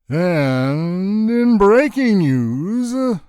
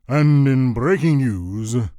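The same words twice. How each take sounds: First: Every syllable is stretched out very long. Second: It is said in a lower, deeper, manlier voice. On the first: "drawing out every syllable of the word and as long as he could" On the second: "Lower, more manly, manlier than a sweaty jockstrap"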